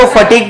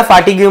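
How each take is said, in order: First: फटीग as two syllables, ending in a hard g; say fa-TEEG. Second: फाटीग्यू with a long first "faa" and "gyu" ending; misread spelling pronunciation. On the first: Teacher showing class how to read it, फटीग said "fa-teeg". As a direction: read फटीग like English "fatigue", no final "yu". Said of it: "इसको फटीग पढ़ना". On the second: Teacher warning class off a misreading, फाटीग्यू ending in "gyu". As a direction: read फाटीग्यू letter by letter, "faa-tee-gyu". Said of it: "फाटीग्यू मत पढ़ना". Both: Shown as a demonstration.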